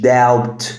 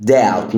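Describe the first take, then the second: First: "doubt" with the B pronounced; wrongly sounded B. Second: "doubt" with the B left silent. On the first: Teacher shows learners the mistake, "doubt" with an audible B. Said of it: "مش doubt". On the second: Teacher models the word for learners, "doubt" with silent B. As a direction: say "doubt" as "dowt", no B. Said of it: "البي هنا silent". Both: Shown as a demonstration.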